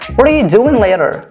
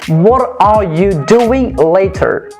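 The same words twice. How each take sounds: First: The words run together with sounds changed. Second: Each word is pronounced fully and separately. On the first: "I'm changing some sounds and I'm trying to produce a new sound" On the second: "That's how English learners pronounce this sentence"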